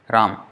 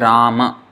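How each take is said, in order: First: No vowel is pronounced after the final m. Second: A vowel is pronounced after the final m. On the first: This is the Hindi pronunciation. "that A is not pronounced" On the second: This is the Sanskrit pronunciation. "in Sanskrit, this is Rama"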